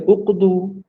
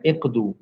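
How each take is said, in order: First: The first vowel is a rounded 'u' sound. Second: The first vowel is a front 'i' sound. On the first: The speaker calls it wrong. "Sepatutnya kan baca uqdu, tapi tidak akan dibaca dengan uqdu" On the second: The speaker calls it right. "dia kena baca dengan iqdu"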